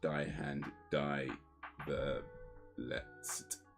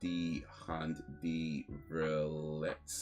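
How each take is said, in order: First: 'Die' is pronounced like 'dye', the English way. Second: 'Die' is pronounced like 'dee', the German way. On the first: The title is read as not German. "if it's not German, then it's just" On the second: The title is read as German. "if it is, then it's"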